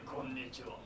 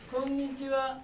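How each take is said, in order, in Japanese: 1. 「こんにちは」は低い声です。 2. 「こんにちは」は高い声です。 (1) "今度低い声で" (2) "今度高い声で言ってみようかな"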